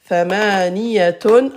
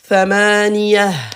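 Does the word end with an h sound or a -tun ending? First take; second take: -tun ending; h sound. First: The word ends with a t sound and -un. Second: The word ends with a soft h sound. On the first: The word is followed by more speech. "Voyelle double" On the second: The word is said at a stop. "À l'arrêt. Ta marbuta se prononce ha"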